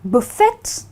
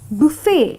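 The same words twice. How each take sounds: First: The final T is pronounced. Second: The final T is silent. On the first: The speaker calls it wrong. "I've heard a lot of people call it buffet" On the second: The speaker calls it right. "So you need to call it buffet"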